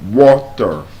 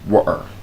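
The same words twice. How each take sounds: First: The middle T sound is clearly pronounced. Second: The middle T sound is left out. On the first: "the correct pronunciation, listen, is water. There's a T sound" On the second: "they do not pronounce the letter T when it is in between two vowel sounds"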